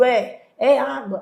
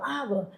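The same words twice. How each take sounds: First: Said in the usual way. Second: Much softer, obediently hushed; lowered voice. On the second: Retold or imitated. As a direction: drop your voice as if told to hush. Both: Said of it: "Baixei a voz".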